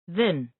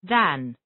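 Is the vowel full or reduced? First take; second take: reduced; full. First: The word has a reduced, weak vowel. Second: The word has a full, clear vowel.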